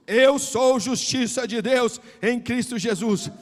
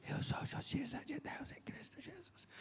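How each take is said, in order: First: Loud, slow declaration; louder. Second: Barely voiced, hushed whisper. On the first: Retold or imitated. Young man told to say it louder, now declaring it loudly. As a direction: proclaim it out loud and deliberately. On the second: Young man repeating the pastor's words, timidly whispered. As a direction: mouth the words almost without voice. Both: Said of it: "Mais alto".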